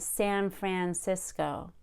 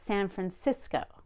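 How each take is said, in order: First: The stress falls on the first word. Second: The stress falls on the last word. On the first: The speaker calls it wrong. "So it's not San Francisco" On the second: The speaker calls it right. "We stress the last word in a place"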